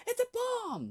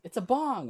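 First: Said in the usual way. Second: Loud high insistent correction; shouting bong. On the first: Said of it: "And he goes". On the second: Retold or imitated. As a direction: yell it out, desperate. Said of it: "he goes".

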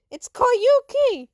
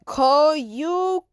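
First: "Koyuki" high, loud and drawn out, ending in KEE; indignant correction. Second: "Koyukai" sounded out loudly, ending in KAI; mispronounced name. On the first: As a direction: cry out "Koyuki" to fix the mistake. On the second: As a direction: stumble through "Koyukai" syllable by syllable. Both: Acted.

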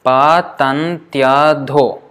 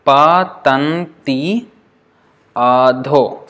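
First: "patantyadho" slow, one word of four syllables; "patantyadho" linked, y gliding into a; slowly joined. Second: "Patanti adho" slow, counted as two words; "Patanti adho" spaced out to show five syllables; split into syllables. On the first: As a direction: stretch "patantyadho" out but keep it joined. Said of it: "if you join it like this". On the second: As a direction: draw out "Patanti", then "adho" apart. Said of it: "How many syllables?". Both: Shown as a demonstration.

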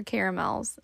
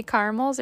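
First: "caramels" said the other regional way; pronunciation contrast. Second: "caramels" said one of two regional ways; pronunciation contrast. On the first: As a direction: say "caramels" as the alternative option. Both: Shown as a demonstration. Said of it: "Do you say caramels or caramels".

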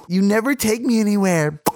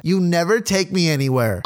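First: Higher-pitched girlfriend, mock mouth full; mimicked mouth full. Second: Said in the usual way. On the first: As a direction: imitate arguing with your mouth occupied. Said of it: "sucking his wiener while arguing with me". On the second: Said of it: "She said".

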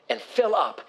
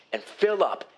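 The two takes are said the same way.

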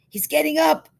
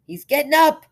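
First: Loud high call out; man at window calling out the news; excited call. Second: Loud high cry out; man at window shouting the news; excited call. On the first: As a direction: blurt out the news. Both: Acted.

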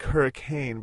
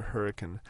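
First: Hurricane with a full "cane" ending; spelling pronunciation. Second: Hurricane reduced to HER-uh-kun, no long A; local pronunciation. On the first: Explaining how the town is spelled, hurricane with a clear "cane". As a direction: say hurricane as HER-uh-KAYN, long A at the end. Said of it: "It's spelled like hurricane". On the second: Explaining how locals say the town, hurricane ending in "kun". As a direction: say hurricane with a short, unstressed "kin" ending. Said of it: "everybody pronounces it hurricane". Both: Shown as a demonstration.

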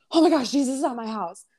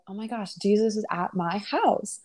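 First: Freaking out, higher and rushed; Martha. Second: Chill, unhurried wonder; Mary. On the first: Martha reacts to Jesus at her house, freaking out. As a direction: imitate a flustered hostess in a quick panic. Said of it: "Martha started freaking out". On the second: Mary stops for Jesus at her house, calm and chill. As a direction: imitate someone calmly taking it in. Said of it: "She's just so chill". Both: Retold or imitated.

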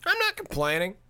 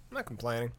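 First: Higher, rising, singsong I'm not complaining with the stress on not; mock-innocent protest. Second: Softer, lower I'm not complaining, dropped under the breath with a light stress on not; muttered aside. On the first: Joking to listeners about pandemic profiteers, a higher, rising, singsong denial. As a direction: tease it, lilting up on not. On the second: Repeating the denial to listeners as a softer, lower mutter. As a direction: mumble it to yourself. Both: Shown as a demonstration.

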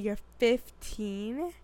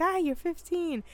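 First: Drawn-out, questioning "fifteen?" rising at the end; zdziwione niedowierzanie. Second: High-pitched "ah", falling away at the end; mild reaction. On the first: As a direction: stretch it slowly into an incredulous question. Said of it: "not that I was like". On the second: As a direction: react high and quick, letting it drop. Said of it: "but I was like". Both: Retold or imitated.

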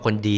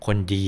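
First: Said in the usual way. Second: คนดี with the final ดี stretched out; drawn-out ending. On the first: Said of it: "พูดคำว่าคนดีเฉยๆแล้วกันนะ". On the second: Shown as a demonstration. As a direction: drag the end of คนดี. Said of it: "ไม่ลากเสียงแบบ เอ่อ ตอนท้าย".

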